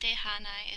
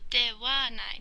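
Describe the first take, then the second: First: The second syllable is pronounced with an 'h' sound. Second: The second syllable is pronounced with a 'w' sound. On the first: The speaker calls it wrong. "not dehanai" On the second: The speaker calls it right. "you're supposed to pronounce it wa. So dewanai"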